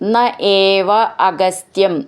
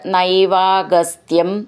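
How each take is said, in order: First: The words are said separately, each vowel distinct. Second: The words are merged into one, vowels fused.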